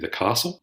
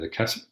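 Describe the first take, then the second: First: It is said the New South Wales way. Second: It is said the Victorian way.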